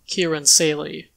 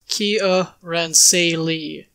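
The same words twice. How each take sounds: First: The syllables are said fast and blurred together. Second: Each syllable is said slowly and clearly. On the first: "when you say it quickly, it kind of comes all mushed together" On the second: "The official pronunciation for Kiaransalee is"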